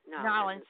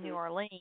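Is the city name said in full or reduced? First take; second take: reduced; full. First: The name is squeezed into two short syllables. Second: The name is said in full, all syllables. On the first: This is how locals say it. "They say Nolens" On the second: This is how the speaker normally says it. "And I say New Orleans"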